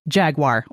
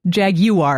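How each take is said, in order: First: It is said with a non-British pronunciation. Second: It is said with a British pronunciation.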